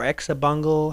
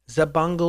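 First: The name begins with an 'eks' sound. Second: The name begins with a plain 'z' sound. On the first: "however you want to say it" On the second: "Probably the proper pronunciation is Zabungle"

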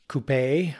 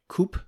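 First: The word is given its French or European pronunciation. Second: The word is given its North American pronunciation. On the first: "which is the French or European pronunciation" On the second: "what here in North America we call coupe"

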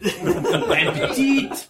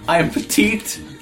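First: It is said in an exaggerated French accent. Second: It is said in the speaker's plain accent.

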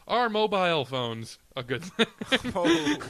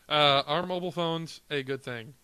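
First: It is said in a put-on British accent. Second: It is said in the speaker's plain accent.

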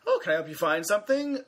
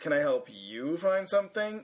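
First: It sounds friendly and eager to help. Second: It sounds cold and dismissive toward the listener.

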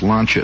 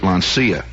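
First: The name is said with an Italian pronunciation. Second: The name is said with an American pronunciation. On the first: This is how it is said in its home country. "but it's pronounced Lancia there" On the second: This is how listeners at home might say it. "Maybe you pronounce it Lancia"

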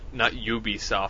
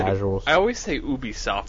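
First: The name starts with a 'you' sound. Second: The name starts with a plain 'oo' sound. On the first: The speaker calls it wrong. "not Ubisoft. Some people say Ubisoft. There's no Y in the name" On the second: The speaker calls it right. "I always say Ubisoft"

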